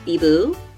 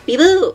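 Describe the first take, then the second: First: It is said in a puzzled, confused tone. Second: It is said in a lively, excited tone. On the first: The speaker does not understand. "There's confused" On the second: The speaker is thrilled.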